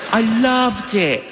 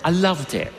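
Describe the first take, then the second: First: Higher, louder "loved" with a beaming push; enthusiastic. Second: Said in the usual way. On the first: Real, not acted. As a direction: gush about "loved" like a happy barista. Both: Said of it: "I was a barista".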